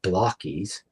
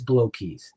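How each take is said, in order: First: The first syllable sounds like 'block'. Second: The first syllable sounds like 'blow'. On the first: The speaker calls it wrong. "It's not block keys" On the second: The speaker calls it right. "it is blow keys"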